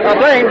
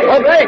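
First: Louder, higher call to get his attention. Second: A second, louder and higher call to be heard. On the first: Editor calling to the fire commissioner at the blaze, loud call. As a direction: hail him across the noise. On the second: Editor calling to the fire commissioner again, loud call. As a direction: hail him again across the noise. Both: Acted.

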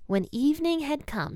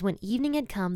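First: Lifted high and slowed on the phrase "When evening had come"; emphatic reading. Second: Said in the usual way. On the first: Shown as a demonstration. Reading the key verse aloud.

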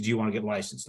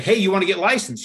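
First: Low-key, unimpressed echo of an offer; mildly reproachful echo. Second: High, louder, eager opener; spring the offer on them, high and loud; upbeat pitch. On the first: Sister repeats brother's question back to him, mildly reproachful. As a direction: quote their question back, understated. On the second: Brother phones sister out of the blue, upbeat pitch. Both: Retold or imitated.

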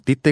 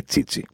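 First: Τίτε with two plain T sounds, "TEE-te"; hard T's. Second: Τσίτσι with "ts" twice, "TSEE-tsee"; soft ch/ts sounds. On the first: Podcaster questioning name rules, plain T's in Τίτε. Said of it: "που είναι σωστή προφορά του ονόματός του". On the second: Podcaster questioning name rules, "ts" twice in Τσίτσι. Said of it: "γιατί δεν τον λένε Τσίτσι". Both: Shown as a demonstration.

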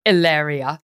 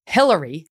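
First: "Hilaria" with a silent H, ee-LAH-ree-ah; "Hilaria" said the mock-Spanish way, no H sound; Spanish-style Hilaria. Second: "Hillary" said the plain American way, HIL-er-ee; "Hillary" with a hard H and a flat ending. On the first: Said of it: "not actually named". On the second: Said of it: "not actually named Hilaria". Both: Shown as a demonstration.

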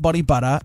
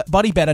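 First: "Butter" with an UH vowel; BUTTER, the mistaken title. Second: "Better" with a clear E vowel; BETTER said distinctly. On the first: Host ruling out the misheard title, "Butter" with an UH. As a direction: say "Butter" clearly, not like better. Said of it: "the way you say it with your accent". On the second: Host clearing up the song title, "Better" pronounced distinctly. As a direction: say "Better" clearly, not like butter. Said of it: "not Body Butter". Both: Shown as a demonstration.

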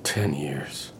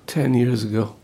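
First: Breathy whisper, barely voiced; hushed memory. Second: Said in the usual way. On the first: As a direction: whisper it to yourself. Whispered, then repeated aloud.

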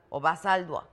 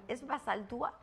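First: "Basaldúa" with ua run together as wa; unaccented U. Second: "Basaldúa" with the ú as its own stressed syllable. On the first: Host offering other surname reading, unaccented U in "Basaldúa". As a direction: say "Basaldúa" as ba-SAL-dwa. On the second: Host checking guest's surname, stressed Ú in "Basaldúa". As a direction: say "Basaldúa" as ba-sal-DÚ-a, questioning. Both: Shown as a demonstration. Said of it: "tiene acento en la U".

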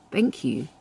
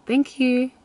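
First: Soft, quiet "Thank you" with a small smile; thank you with a little smile. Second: Much higher sugary "Thank you"; sweet thank you. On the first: Demo of answering a man's compliment, soft and smiling. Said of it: "with a little smile". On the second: Showing the art of being sweet, high and sugary. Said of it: "I have mastered the art of being sweet". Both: Shown as a demonstration.

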